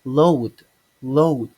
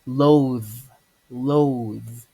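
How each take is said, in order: First: "load" for loathe, ending in d; "load", loud, d replacing th; mispronunciation. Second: "loathe" ending in buzzing th; correct pronunciation. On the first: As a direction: say "load" loudly with a stopped d. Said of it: "some people mispronounce it as in". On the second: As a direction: say "loathe" with long voiced th. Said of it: "but it's actually". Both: Shown as a demonstration.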